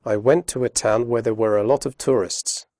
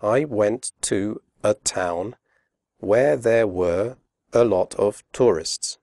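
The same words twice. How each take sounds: First: Fast natural speech with weak forms; quick connected read with schwas; read quickly. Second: Slow, careful, every word full; slow, clear example read; spoken slowly. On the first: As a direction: run the words together quickly. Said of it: "Now listen to the same sentence read quickly". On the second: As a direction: pronounce each word separately. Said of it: "Listen to this sentence spoken slowly". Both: Shown as a demonstration.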